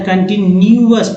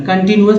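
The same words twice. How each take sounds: First: कंटिन्यूअस as kan-ti-ni-yu-as; corrected reading. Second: कंटिन्यूअस as kan-ti-nuas; simplified reading. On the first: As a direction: put a clear ni-yu inside कंटिन्यूअस. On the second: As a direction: run n straight into u in कंटिन्यूअस. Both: Shown as a demonstration. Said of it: "हालांकि कंटिन्यूअस पढ़ना".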